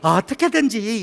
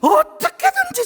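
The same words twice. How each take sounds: First: It is said flatly, without much energy. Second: It is said with intense, rising passion. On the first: The speaker calls it wrong. "이러지 마시고" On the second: The speaker calls it right. "끌어오르는"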